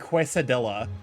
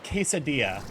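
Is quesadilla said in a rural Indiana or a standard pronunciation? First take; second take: rural Indiana; standard. First: The word is said with a rural Indiana accent. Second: The word is said in its standard pronunciation. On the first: The speaker calls it wrong. "horrible rural Indiana pronunciation of that word" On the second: The speaker calls it right. "the real pronunciation of that word"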